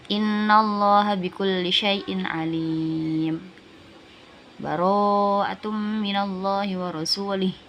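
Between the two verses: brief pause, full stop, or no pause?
full stop. It stops fully with a breath between verses. "Jadi kalau dibaca waqaf"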